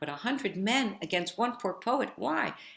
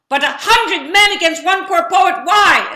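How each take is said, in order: First: The line is said at a soft volume. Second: The line is said at a very loud volume. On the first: "So I said the line"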